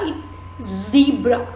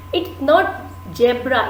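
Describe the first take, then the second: First: "zebra" slow and clear with a true z, "zee-bra"; correct pronunciation. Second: "zebra" said as "jebra" with a j sound; wrong pronunciation. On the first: Teacher models the right way for students: slow "zebra" with a clear z. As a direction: model it carefully, a buzzing z in "zebra". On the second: Teacher shows students the common error: "zebra" said as "jebra". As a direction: demonstrate the mistake, "zebra" starting with j. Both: Shown as a demonstration.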